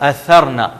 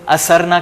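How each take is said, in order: First: The middle consonant is a soft th sound. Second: The middle consonant is a plain s sound. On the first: The speaker calls it right. "यहां पर आप सा को अंडरलाइन करेंगे" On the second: The speaker calls it wrong. "हम आमतौर पे असरना कहते हैं, जो कि गलत है"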